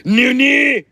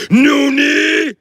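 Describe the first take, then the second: First: High, loud roaring villain cry; anime villain shout. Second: High, loud villain roar; anime villain shout. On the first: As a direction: roar it like a cartoon villain. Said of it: "All the anime villains say that". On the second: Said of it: "so I can be like". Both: Pretend.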